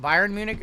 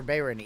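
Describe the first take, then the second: First: Bayern said as BY-ern; first pronunciation option. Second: Bayern said as BAY-ern; alternative pronunciation. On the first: Streamer asks viewers how to say Bayern, BY-ern pronunciation. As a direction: say Bayern with an "eye" vowel, BY-ern. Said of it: "is it Bayern Munich or Bayern". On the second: Streamer offers the other option for Bayern, BAY-ern pronunciation. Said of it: "mispronounce it and say the other one". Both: Shown as a demonstration.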